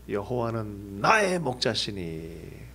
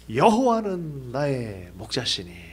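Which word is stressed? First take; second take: 나의; 여호와는. First: The stress is on 나의. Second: The stress is on 여호와는.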